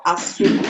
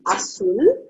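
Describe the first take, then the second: First: Azul whispered, split as a-zul; syllable split. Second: Azul rising, stress on the last syllable, ah-SOOL; agudo example. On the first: Teacher splits Azul into syllables for students. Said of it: "I will separate it into syllable". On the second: Teacher gives azul as an agudo example. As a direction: hit the end of azul. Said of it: "So we have". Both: Shown as a demonstration.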